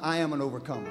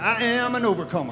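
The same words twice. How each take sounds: First: It is said in a plain, steady voice. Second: It is said with a defiant attitude.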